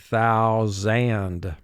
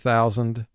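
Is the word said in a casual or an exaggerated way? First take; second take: exaggerated; casual. First: The word is said with exaggerated, careful sounds. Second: The word is said casually, as in conversation. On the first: This helps match the spelling. "as we spell the word, we say thousand" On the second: This is how it sounds in everyday talk. "we in conversation say thousand"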